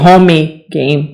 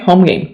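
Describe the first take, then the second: First: An extra vowel is added after 'home'. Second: No extra vowel is added after 'home'. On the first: The speaker calls it wrong. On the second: The speaker calls it right.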